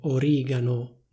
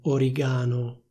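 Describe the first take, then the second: First: The stress is on the second syllable. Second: The stress is not on the second syllable. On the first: The speaker calls it right. "l'accento è sulla i. In italiano si dice origano" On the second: The speaker calls it wrong. "non origano"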